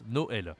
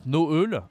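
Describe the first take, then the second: First: "Noël" with a clear open è; softer corrected "Noël", eh in the last syllable. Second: "Noël" mispronounced with a rounded eu; louder wrong take, euh in "Noël"; wrong vowel. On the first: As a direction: say "Noël" as no-EL, pitch falling. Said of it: "but Noël". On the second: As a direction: say "Noël" as no-UHL, deliberately wrong. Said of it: "Not Noël". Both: Shown as a demonstration.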